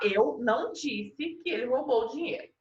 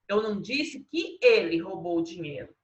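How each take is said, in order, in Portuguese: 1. A ênfase está na palavra eu. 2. A ênfase está na palavra ele. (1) "Aqui está grifado, eu não disse" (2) "Agora é o ele que está grifado"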